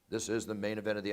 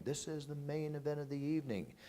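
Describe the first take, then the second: First: Said in the usual way. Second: Chanted, mimic the crowd echoing the announcer, pitched up; imitated crowd chant. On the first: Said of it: "I'll speak and I'll say". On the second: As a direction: crowd singing along with the announcer. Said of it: "I hear 'em, they're going".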